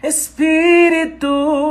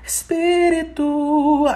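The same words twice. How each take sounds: First: It is powerful, with extra punch pushed forward. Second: It is light, with little pressure, in the head. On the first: "quero mais um punch a mais" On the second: "A gente chama isso de voz de cabeça, que é essa ressonância mais leve, com menos pressão"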